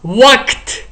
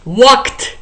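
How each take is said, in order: No difference in how they are said.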